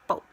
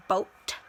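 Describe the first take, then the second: First: Boat said "boa", the T left off; boat without T. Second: Boat with the final T dropped, ending on the vowel; boat without T. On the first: Vlogger showing how she really says boat. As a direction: drop the T in boat. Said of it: "I can't say that. I say boat". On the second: Vlogger demonstrating her own boat pronunciation. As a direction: say boat as "boa" with no T. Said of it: "I don't pronounce the word T". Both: Shown as a demonstration.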